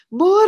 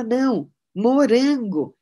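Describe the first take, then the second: First: High, much louder furious shout of the word Morango; stamping toddler shouting Morango; angry toddler yell. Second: Put-on insistent toddler. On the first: Retold or imitated. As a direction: bark Morango like a cross little kid. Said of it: "E ela assim, já brava".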